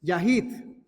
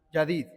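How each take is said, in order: First: "Yahid" with a breathy h in the middle, rising at the end; corrected Hebrew "Yahid", h sound in the middle; corrected reading. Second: "Yadid" with a d in the middle, said by mistake; "Yadid", the slip before the correction; wrong reading. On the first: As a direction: carefully say "Yahid", ya-HEED with an h. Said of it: "Yahid es". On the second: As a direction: misread "Yadid", d sound in the middle. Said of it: "No, perdón, al revés". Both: Shown as a demonstration.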